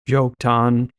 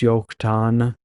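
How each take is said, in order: First: It starts with a sound between J and Y. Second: It starts with a Y sound. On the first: "I kind of pronounced it in between a J and a Y there" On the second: "everything with a J is actually a Y in Hebrew"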